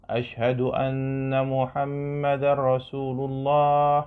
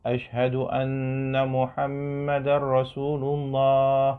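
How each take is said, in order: No difference in how they are said.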